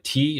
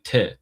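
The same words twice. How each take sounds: First: Said in the usual way. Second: "te" with a short open vowel; short "te", not a long ee; Farsi letter name. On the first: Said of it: "like, T is". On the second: Shown as a demonstration. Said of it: "they say te".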